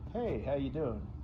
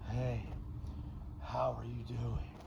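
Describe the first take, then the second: First: The voice is plain, without extra breath. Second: The voice is breathy, with lots of air. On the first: "instead of saying" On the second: "he breathed out when he talked more than he should"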